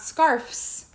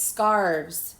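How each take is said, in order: First: The word ends with an f sound before s. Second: The word ends with a v sound before s. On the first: The speaker calls it wrong. "It's not scarfs" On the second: The speaker calls it right. "It's scarves"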